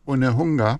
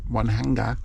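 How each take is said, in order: First: The first vowel is a pure oo-like vowel. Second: The first syllable sounds like the word one. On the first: The speaker calls it right. "we got une, unehunga" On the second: The speaker calls it wrong. "some English pronounce one, hang, one hanga, but obviously it's wrong"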